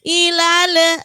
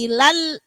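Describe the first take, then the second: First: The l is released into an extra vowel. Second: The l is held and stops cleanly. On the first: The speaker calls it wrong. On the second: The speaker calls it right.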